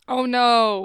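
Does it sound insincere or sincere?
insincere. It sounds flat and insincere.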